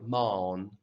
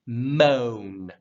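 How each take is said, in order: First: "moan" with a flattened open vowel, as mawn; wrong pronunciation. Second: "Moan" strong, long and round, louder; rounded vowel. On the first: Teacher shows the mistake to avoid, unrounded moan. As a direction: say "moan" as mahn, no rounded oh. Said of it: "You don't wanna say moan". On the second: Teacher models the right way, rounded moan. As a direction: hit a round oh in "Moan" and glide down to n. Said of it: "Not like moan". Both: Shown as a demonstration.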